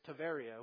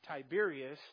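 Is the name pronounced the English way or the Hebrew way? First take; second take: Hebrew; English. First: The name is said with the Hebrew pronunciation. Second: The name is said with the English pronunciation. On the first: "in Hebrew they pronounce it Tiberia" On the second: "our English word that we pronounce Tiberias"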